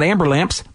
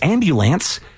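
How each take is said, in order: First: The word sounds like 'amber' followed by 'lamps'. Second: The middle sounds like 'bu' with a final 'ns'. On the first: The speaker calls it wrong. "It's not amber lamps" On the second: The speaker calls it right. "I mean, it's wrong. It's because it's ambulance"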